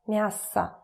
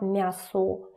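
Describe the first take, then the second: First: The unstressed final vowel is reduced to 'a'. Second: The unstressed final vowel is a full 'o'. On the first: The speaker calls it right. "when it's not stressed, it turns to a" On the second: The speaker calls it wrong. "It's not мясо"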